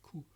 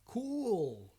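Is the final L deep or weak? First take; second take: weak; deep. First: The final L is weak or missing. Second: The final L sounds deep and long. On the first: The speaker calls it wrong. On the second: The speaker calls it right. "sounds deeper, longer, and sounds like oh"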